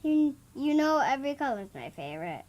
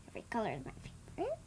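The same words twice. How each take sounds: First: Says it again, louder and clearer. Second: Soft, barely audible mumble; too quiet. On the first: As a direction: repeats it so the audience can hear. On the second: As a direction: says it under her breath, too quietly. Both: Real, not acted. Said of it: "You need to talk a little bit louder".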